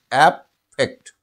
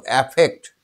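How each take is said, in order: First: affect said slowly, each syllable apart: অ্যা-ফেক্ট; syllables split slowly. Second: Said in the usual way. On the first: Shown as a demonstration. (শব্দটা ধীরে ভেঙে ভেঙে, অ্যা-ফেক্ট) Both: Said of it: "এই সিলেবলটা দেখো".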